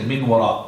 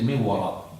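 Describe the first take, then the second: First: The n is pronounced clearly before the w. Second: The n merges into the following w. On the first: The speaker calls it wrong. "we don't say min wara" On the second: The speaker calls it right. "we say min wara"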